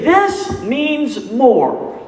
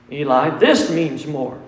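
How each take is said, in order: First: THIS drawn out very slowly and high, falling on "This means more"; emphatic stress. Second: Said in the usual way. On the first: Shown as a demonstration. Pastor stressing Jesus' words to congregation, slow emphatic stress. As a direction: lean hard on "This", stretching it out. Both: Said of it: "to make an emphasis".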